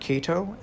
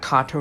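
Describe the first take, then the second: First: The first vowel sounds like 'ay'. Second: The first vowel sounds like 'ah'. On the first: The speaker calls it wrong. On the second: The speaker calls it right.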